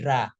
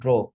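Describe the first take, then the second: First: The vowel is an open 'ah' sound. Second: The vowel is a rounded 'aw' sound. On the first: The speaker calls it wrong. "bukan dra" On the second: The speaker calls it right. "tapi draw. Pakai o langsung"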